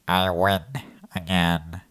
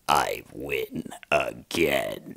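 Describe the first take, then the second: First: It is said in a nasal Squidward-like voice. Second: It is said in a grand, epic voice.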